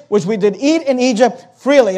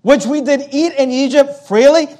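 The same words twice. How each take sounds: First: Said in the usual way. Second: Doubting echo, lifted on "freely"; incredulous echo. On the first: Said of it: "and they say". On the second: Acted. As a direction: quote it back as a rising question. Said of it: "Is that really the word".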